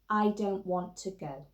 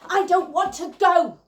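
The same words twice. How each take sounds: First: It is said plainly, without heavy or tight force. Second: It is said heavily, tightly and fast, with force. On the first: "So you say this with me" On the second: "put that quality of slash, heavy, indirect, tight and fast into our bodies and into our line"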